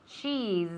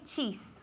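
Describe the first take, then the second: First: The final consonant is a buzzing z. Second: The final consonant is a hissing s. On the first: The speaker calls it right. "It's the fly, la mosca" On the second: The speaker calls it wrong. "We don't say cheese"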